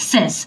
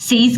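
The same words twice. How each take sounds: First: সেজ with a short e, like sez; correct pronunciation. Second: সেইজ with the long ei sound, the common mistake; wrong pronunciation. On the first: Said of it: "এটা correct, সেজ". (শুদ্ধ উচ্চারণে সেজ) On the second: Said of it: "সেইজ কিন্তু correct না". (ভুল উচ্চারণে সেইজ) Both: Shown as a demonstration.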